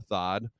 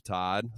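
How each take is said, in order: First: "Thod" with a th sound, like thin, in place of the T; mock lisped name. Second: Said in the usual way. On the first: Shown as a demonstration. Host mocking the coach, lisping "Thod".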